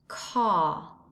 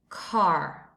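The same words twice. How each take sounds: First: It is said in a British English accent. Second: It is said in an American English accent. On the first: "this word in British English, it sounds car" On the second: "an American English, it sounds car"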